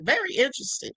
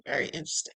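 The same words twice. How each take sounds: First: Said in the usual way. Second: Whispered aside. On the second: Shown as a demonstration. Vlogger musing to her viewers in a whispered aside. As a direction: whisper "Very interesting" low and soft.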